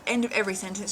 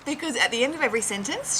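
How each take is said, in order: First: Said in the usual way. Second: Mock Aussie upspeak on "sentence"; rising end tune. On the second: Shown as a demonstration. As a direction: pitch climbs on "sentence" like a question. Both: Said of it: "Australians raise their voice at the end".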